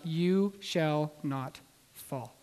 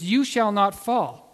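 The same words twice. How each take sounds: First: It is said as a reassuring guarantee. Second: It is said as a stern warning. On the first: Someone else guarantees the listener will not fall. "the instructor roped us in and said, under my ability and the means by which we have set up" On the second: The listener must keep themselves from falling. "The first case was, you shall not fall. Under your own ability, you can't fall"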